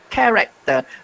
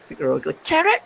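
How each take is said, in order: First: The word begins with a k sound. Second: The word begins with a ch sound. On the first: The speaker calls it right. "it's pronounced as k, not ch" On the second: The speaker calls it wrong. "the way it is spelled"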